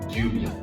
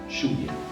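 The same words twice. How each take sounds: First: The first sound is a soft y-like sound. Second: The first sound is a buzzing zh-like sound. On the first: This is the most neutral pronunciation. "La prononciation la plus neutre pour ces deux lettres" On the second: This is how it is said in Uruguay and Argentina. "on prononce dans nos pays ces deux lettres comme la fin de la mot voyage"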